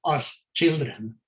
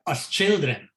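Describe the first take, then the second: First: Put-on "as children" slowed, each word weighted; emphasis on children. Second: Said in the usual way. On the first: Shown as a demonstration. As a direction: lean on "as children", slowly, to underline it. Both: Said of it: "may I emphasize that word".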